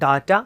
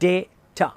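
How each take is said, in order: First: The first vowel sounds like 'ah'. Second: The first vowel sounds like 'ay'. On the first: The speaker calls it wrong. "Not ഡാറ്റ" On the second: The speaker calls it right. "ഇനി അത് British English pronunciation ആണെങ്കിൽ ഡേറ്റ"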